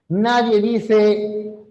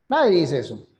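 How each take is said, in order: First: Nadie dice muy lento; lento marcado. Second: Said in the usual way. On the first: Shown as a demonstration. (Nadie dice pausado) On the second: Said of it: "Aquí nadie pronuncia la Z".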